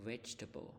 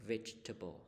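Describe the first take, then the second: No difference in how they are said.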